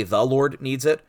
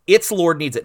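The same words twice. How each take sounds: First: Slower, "The" set apart as "thee"; stress on THE. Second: ITS punched louder and higher; stress on ITS. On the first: Preacher quoting a rival translation, stress on "The". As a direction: lean on "The" as the wrong word. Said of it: "But it's not the Lord". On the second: Preacher giving his translation of the disciples' reply, stress on "Its". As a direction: hit "Its" hard, then "Lord needs it". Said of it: "some people wanna translate that". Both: Shown as a demonstration.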